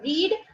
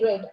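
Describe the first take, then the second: First: The vowel is long, like 'reed'. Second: The vowel is short, like 'red'. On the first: It is the present tense. "रीड is present" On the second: It is the past tense. "वी टू is रेड"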